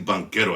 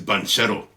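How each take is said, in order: First: The middle consonant is a hard k sound. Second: The middle consonant is a ch sound. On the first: This is how others say the name. The speaker calls it wrong. "I don't know why they say Banquero" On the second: This is how the speaker thinks it is said. The speaker calls it right. "I think it's Banchero"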